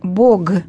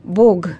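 The two takes are said the same way.

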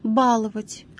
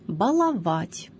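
First: The stress is on the first syllable. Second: The stress is on a later syllable. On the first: The speaker calls it wrong. "формы с ударением на первом слоге, являются неправильными" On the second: The speaker calls it right. "Правильными признаются только следующие варианты"

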